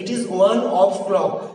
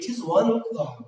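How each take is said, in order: First: The word before clock is a full 'of'. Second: The word before clock is reduced to 'o'. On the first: The speaker calls it wrong. "উচ্চারণ বেঁধে যাচ্ছে" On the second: The speaker calls it right. "It is one ও clock বলা হলো"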